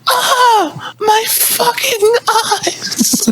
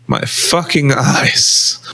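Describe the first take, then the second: First: It is screamed dramatically. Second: It is said fairly calmly.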